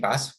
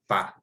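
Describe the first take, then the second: First: The final s sound is pronounced. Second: The final s sound is silent. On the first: The speaker calls it wrong. "we don't say pas" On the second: The speaker calls it right. "we say pa pa"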